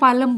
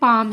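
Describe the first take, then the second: First: The L is sounded. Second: The L is silent. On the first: The speaker calls it wrong. "कई teachers को इसको पालम बोलते हुए देखा है" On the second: The speaker calls it right. "ये ये एक्चुअल में पाम है।"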